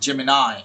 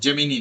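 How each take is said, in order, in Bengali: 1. শব্দটি 'eye' দিয়ে শেষ হয়। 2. শব্দটি 'ee' দিয়ে শেষ হয়। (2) "জেমিনি না"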